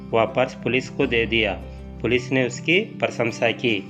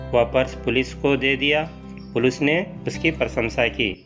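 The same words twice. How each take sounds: No difference in how they are said.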